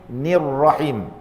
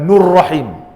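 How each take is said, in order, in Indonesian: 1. Suku kata pertama dibunyikan dengan vokal 'i'. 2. Suku kata pertama dibunyikan dengan vokal 'u'. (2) "Bukan nurrahim"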